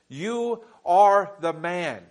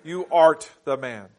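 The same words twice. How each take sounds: First: Slow, "are" held and falling; stress on are. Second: "art" said clearly with a final t; slow, archaic "art" pressed; King James wording. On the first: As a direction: lean into "are" slowly. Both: Shown as a demonstration. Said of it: "Or in the King James".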